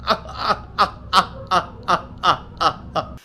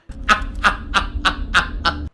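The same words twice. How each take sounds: First: Breathy unvoiced wheezing laugh; real laugh demo. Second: Another unvoiced wheezy laugh; breathy laugh demo. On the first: Showing chat how he truly laughs, breathy wheeze. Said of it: "here's how I laugh". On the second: Second demo for chat of his laugh, wheezing. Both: Shown as a demonstration.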